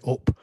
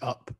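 First: It is said in a northern English accent. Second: It is said in a standard, careful English accent. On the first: "usually I would speak in the same way as you and say up" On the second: "I'm trying to speak quite correctly here. I'm using up"

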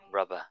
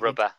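First: It is said in a soft, breathy, sensual voice. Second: It is said in a normal speaking voice.

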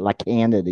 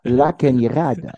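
First: The name is said with a plain n sound. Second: The name is said with a ny sound. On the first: The speaker calls it wrong. "you don't say it La Canada" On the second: The speaker calls it right. "You say La Cañada"

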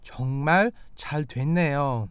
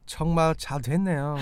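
First: It is said a little more slowly. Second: It is said at normal conversational speed.

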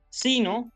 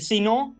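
First: The stress is on the first syllable. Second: The stress is on the last syllable. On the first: The speaker calls it right. "esta sería la pronunciación adecuada" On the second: The speaker calls it wrong. "Eso es inadecuado"

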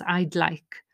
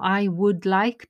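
First: The first two words are merged into a contraction. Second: The first two words are said separately in full. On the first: The speaker calls it right. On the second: The speaker calls it wrong.

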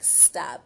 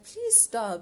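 First: It is said bluntly, without warmth. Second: It is said nicely, with a smile.

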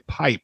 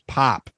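First: The vowel glides like a standard long i. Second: The vowel is flat, sounding like pop. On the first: "she wouldn't say pipe" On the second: "it was pop"

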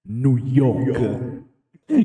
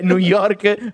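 First: It is said with an American-style pronunciation. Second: It is said with an Italian-style pronunciation. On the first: The speaker calls it right. "ma si dice New York" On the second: The speaker calls it wrong. "non si dice New York"

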